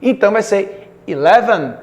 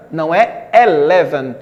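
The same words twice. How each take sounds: First: "eleven" with an ee sound at the start; correct eleven. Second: "eleven" begun with an open e sound; wrong eleven. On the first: Teacher models right "eleven" for the students. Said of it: "tem pronúncia de I". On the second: Teacher shows the wrong "eleven" students say. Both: Shown as a demonstration.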